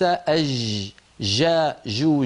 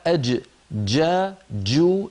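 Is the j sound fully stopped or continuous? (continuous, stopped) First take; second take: continuous; stopped. First: The j sound flows continuously without a stop. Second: The j sound is fully stopped before release. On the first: The speaker calls it wrong. "ليس ... ليست كذلك" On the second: The speaker calls it right. "الجيم الفصيحة ... صوتها محبوس"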